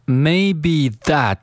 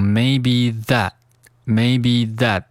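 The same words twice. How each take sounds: First: Said in the usual way. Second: "maybe that" with the last t unreleased; "maybe that" ending on a held, silent t; unreleased final T. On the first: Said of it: "这个that，T呢". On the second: Shown as a demonstration. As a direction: stop the t in "that" without a puff. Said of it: "需要失去爆破".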